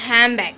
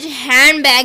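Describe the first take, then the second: First: "handbag" said as "hambag", N turned to M; assimilated pronunciation. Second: Said in the usual way. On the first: Shown as a demonstration. Teacher showing rapid speech, "handbag" as "hambag". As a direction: drop the D in "handbag" and say M before B. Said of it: "is pronounced as handbag". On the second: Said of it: "in rapid speech handbag is pronounced as".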